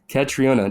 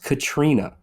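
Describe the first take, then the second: First: The middle 'o' vowel is pronounced. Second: The middle 'o' vowel is silent. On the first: The speaker calls it wrong. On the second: The speaker calls it right.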